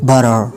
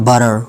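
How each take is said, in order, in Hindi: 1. American उच्चारण, जिसमें अंत में 'R' की आवाज़ है। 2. अमेरिकन उच्चारण, जिसमें अंत में 'R' की आवाज़ है।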